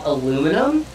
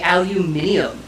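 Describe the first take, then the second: First: The word is said the non-Australian way. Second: The word is said the Australian way. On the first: "it's not called aluminum" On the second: "people from Australia, They say aluminium"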